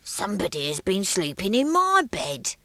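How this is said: It is said in a deep, growly voice.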